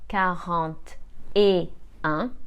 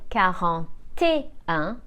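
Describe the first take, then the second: First: The words are separated and the voice drops. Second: The T links smoothly into the next word. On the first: The speaker calls it wrong. "Otherwise, our voice goes down" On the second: The speaker calls it right. "this is why we need to carry the T"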